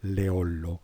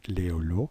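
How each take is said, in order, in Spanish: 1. El nombre se pronuncia a la italiana. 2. El nombre se pronuncia a la francesa. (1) "que italiano, que mm, sonaría más bien Leollo" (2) "francés, que sonará más bien Leolo"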